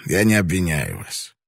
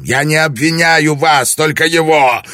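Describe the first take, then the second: First: Said in the usual way. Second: Roared, far louder and higher; roaring. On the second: A narrator's reading. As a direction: roar it out with full force. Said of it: "проревел Бунтара".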